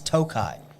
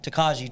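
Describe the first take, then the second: First: The word is said without a j sound. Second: The word is said with a j sound. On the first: The speaker calls it right. "What you don't understand it, it's Tokai" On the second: The speaker calls it wrong. "everybody was like this Takaji finish"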